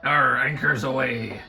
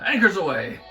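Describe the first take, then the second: First: It is said in a put-on pirate voice. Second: It is said in a plain voice.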